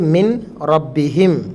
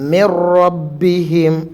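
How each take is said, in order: First: The n is heard before the r. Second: The n merges into a doubled r. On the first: "എഴുതിയത്" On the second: "നൂൻ ഉച്ചരിക്കുന്നതല്ല"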